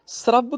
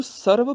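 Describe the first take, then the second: First: ਸਰਬ said "srabb", r joined to the s; half r. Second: ਸਰਬ said "sar-b", full r after the vowel. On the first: Teacher shows the half letter, ਸਰਬ as "srabb". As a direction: slide s into r in ਸਰਬ. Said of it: "ਰਾਰਾ ਅੱਧਾ ਹੋ ਗਿਆ". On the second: Teacher shows the full letter, ਸਰਬ as "sarab". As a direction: give ਸਰਬ a whole r before b. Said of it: "ਰਾਰਾ ਪੂਰਾ ਹੋ ਗਿਆ". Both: Shown as a demonstration.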